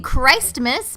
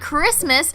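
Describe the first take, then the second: First: The first syllable has a long 'eye' vowel. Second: The first syllable has a short 'ih' vowel. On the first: The speaker calls it right. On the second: The speaker calls it wrong.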